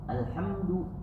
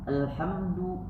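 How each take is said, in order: The two takes are said the same way.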